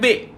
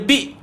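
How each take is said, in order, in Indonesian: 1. Vokalnya bunyi 'eh' terbuka. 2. Vokalnya bunyi 'ee' tertutup. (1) "bukan be" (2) "jadi bunyi dia bi"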